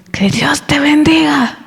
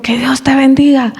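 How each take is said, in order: First: Higher, slow, hushed blessing; a mock-sweet whispered "Que Dios te bendiga". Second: Higher, voiced, a blessing through annoyance; "Que Dios te bendiga" said with mock annoyance; angry blessing. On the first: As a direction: breathe it out like a gentle blessing. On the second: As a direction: grudgingly bless him while irritated. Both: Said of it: "Así, pero con enojo".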